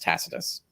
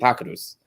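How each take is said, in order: First: The name is said with English pronunciation. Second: The name is said with Latin pronunciation. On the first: "in the sort of British tradition, it's Tacitus" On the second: "in the Latin it'd be Tacitus"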